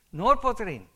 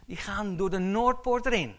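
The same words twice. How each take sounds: First: Noordpoort punched loud and high; stress on Noordpoort. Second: Said in the usual way. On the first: Shown as a demonstration. Preacher drilling the congregation, Noordpoort punched loud. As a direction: hit the word Noordpoort hard, let erin fall. Preacher repeats key phrase.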